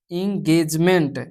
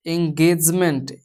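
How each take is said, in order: First: एंगेजमेंट begun with a clear ee sound; slow corrected take, एंगेजमेंट as ing-gage-ment; corrected pronunciation. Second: एंगेजमेंट begun with an eh sound; slow slip, एंगेजमेंट starting eng; mispronounced first take. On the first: Teacher corrects herself to the E-as-ee sound, slowly. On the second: Teacher's first slip before correcting, slow eh-start. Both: Shown as a demonstration. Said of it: "ई से उच्चारित करते हैं".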